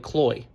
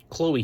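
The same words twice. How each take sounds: First: "Chloe" squashed into one syllable, like "Kloy"; one-syllable name. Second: "Chloe" with a long O, then a long E; two syllables. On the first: Chloe showing how friends shorten it, "Chloe" as one syllable. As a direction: run the vowels of "Chloe" together as "oy". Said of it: "making it one syllable". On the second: Buck repeating her name properly, "Chloe" in two syllables. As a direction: say "Chloe" as "KLOH-ee", both vowels distinct. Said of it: "Two syllables, long O, long E". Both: A narrator's reading.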